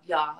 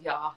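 First: "Yeah" said as short open "yah", a South African touch. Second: "yeah" again as a clipped open "yah", lightly imitated; South African yeah. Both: Shown as a demonstration. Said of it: "Yeah, instead of "yes".

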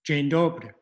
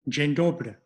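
First: Second model take; Polish greeting again. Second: Dzień dobry with stress on DO of dobry, falling; first model take; Polish greeting. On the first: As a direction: repeat Dzień dobry clearly for learners. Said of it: "you can repeat after me". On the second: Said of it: "here's the basic pronunciation". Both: Shown as a demonstration.

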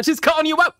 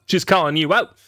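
First: Teasing. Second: Said in the usual way. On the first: Real, not acted. Teasing reaction to a blunt remark.

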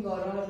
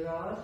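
First: گاراژ said the Persian way, stress on the last syllable. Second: گاراژ said the English way, quicker, stress on the first syllable. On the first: A teacher showing the class the Persian گاراژ. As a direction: give گاراژ with Persian sounds. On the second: A teacher showing the class the English گاراژ. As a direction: give گاراژ with English sounds. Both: Shown as a demonstration.

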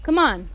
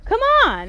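First: Said in the usual way. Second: High, loud shout. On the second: Real, not acted. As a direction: yell it at the fleeing enemy. Fight urging.

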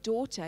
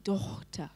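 First: Said in the usual way. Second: "Dochter" with a rasped, throaty ch in the middle; old guttural GH. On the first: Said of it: "So the word daughter used to be". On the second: Shown as a demonstration. Teacher showing the old pronunciation, "Dochter" with guttural ch. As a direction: say "Dochter" with a German-style guttural ch. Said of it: "used to be Dochter".

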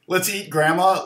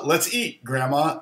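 First: "Let's eat Grandma" run together without a break; no comma pause. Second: "Let's eat, Grandma" with a break after "eat"; comma pause. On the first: Showing why commas are important, run straight through. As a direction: say "eat Grandma" as one unbroken phrase. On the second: Showing why commas are important, pause before Grandma. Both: Shown as a demonstration. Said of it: "commas are important".

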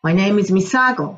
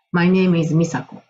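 First: "My name is 美佐子" like a native speaker, stress on "佐"; fluent American-sounding "My name is 美佐子"; imitating the boy's English-style "My name is 美佐子", leaning on "佐"; English-like delivery. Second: "My name is 美佐子" in flat katakana English, slow; "My name is 美佐子" like a Japanese schoolkid, syllable by syllable; Japanese-style English. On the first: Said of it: "彼のように言うと". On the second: Shown as a demonstration. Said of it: "これ日本語っぽいですよね".

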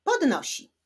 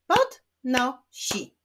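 First: Said in the usual way. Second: "Podnosi" slowly as pod, no, si; split into syllables. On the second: Shown as a demonstration. Teacher clapping syllables of podnosi, slowly split. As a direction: clap out "Podnosi" in three separate beats. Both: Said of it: "Wyklaszczmy sylaby w tych wyrazach".

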